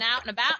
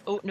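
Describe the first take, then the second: First: It is said in a Southern American accent. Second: It is said in a Canadian accent. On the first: "the only two accents I have" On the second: "I'll have my Canadian accent back"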